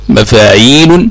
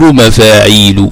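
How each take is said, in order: First: The word ends with a final n sound. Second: The word ends with a short vowel. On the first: "الكف هو حذف السابع الساكن" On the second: "تصير مفاعيل"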